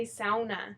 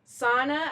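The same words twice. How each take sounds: First: Sauna said "SOW-nuh", rhyming with "now"; old mispronunciation. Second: Sauna said "SAW-nuh"; standard pronunciation. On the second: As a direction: say sauna loudly with an open "ah" first vowel. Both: Shown as a demonstration. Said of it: "I used to say sauna".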